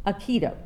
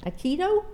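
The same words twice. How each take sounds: First: Aikido. settled as uh-KEE-doh, falling; Aikido. repeated with confident falling tune; Aikido. said the corrected way, sure of it; corrected pronunciation. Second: Aikido? tried as nuh-KEE-oh with a rising question; Aikido? tentatively sounded out, rising at the end; Aikido? said hesitantly, ending in a rise; unsure pronunciation. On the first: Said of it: "help me with the pronunciation". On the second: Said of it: "you may have to help me with the pronunciation". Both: Shown as a demonstration.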